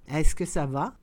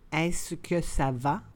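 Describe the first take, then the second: First: The phrase is said at conversational speed. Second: The phrase is said slowly and carefully. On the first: "and then in communicational Canadian French" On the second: "then slowly said in French"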